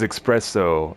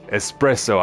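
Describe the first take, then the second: First: The word begins with an 'ex' sound. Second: The word begins with an 'es' sound. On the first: The speaker calls it wrong. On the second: The speaker calls it right.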